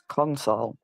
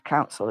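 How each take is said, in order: First: The word sounds like console, ending in -sole. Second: The word sounds like council, ending in -sel. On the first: The speaker calls it right. "it's pronounced console" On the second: The speaker calls it wrong. "it's not pr- pr- pronounced council"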